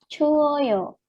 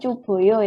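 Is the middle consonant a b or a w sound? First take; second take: w; b. First: The middle consonant is a w sound. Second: The middle consonant is a b sound. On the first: The speaker calls it right. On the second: The speaker calls it wrong.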